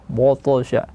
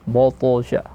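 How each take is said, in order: The two takes are said the same way.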